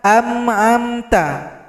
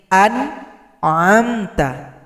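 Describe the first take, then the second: First: The two throat consonants sound the same. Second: A glottal stop comes first, then a pharyngeal sound. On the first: The speaker calls it wrong. "Jangan terbaca am amta" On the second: The speaker calls it right. "Hamzah dulu baru huruf ain"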